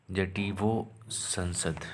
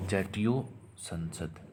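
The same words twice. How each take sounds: First: जटीवो संसद said slowly the Bengali way, jo-tee-vo shong-shod; Bengali pronunciation. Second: Said in the usual way. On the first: Shown as a demonstration. Teacher showing students the Bengali way to say it, slow and careful. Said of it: "Bengali tune है उसमें थोड़ा सा अलग बोला जाएगा". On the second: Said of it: "हमारा संसद से ये इसका संसद है".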